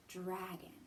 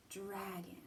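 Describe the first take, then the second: No difference in how they are said.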